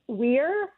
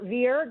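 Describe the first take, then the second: First: The word starts with a W sound. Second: The word starts with a V sound. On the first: This is the older common Latin form. "in common Latin, that V would have been pronounced like a W" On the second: This is the church Latin form. "but in church Latin, like a V"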